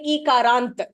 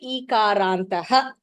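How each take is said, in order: First: The word ends abruptly without a final breath. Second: The word ends with a breathy echoed vowel. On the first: The speaker calls it wrong. "you are saying ikarant" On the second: The speaker calls it right. "You have to say ikarantah"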